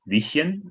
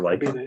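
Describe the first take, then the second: First: The name is said with a German pronunciation. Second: The name is said with an English pronunciation. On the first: "I'm going to put a German pronunciation on this"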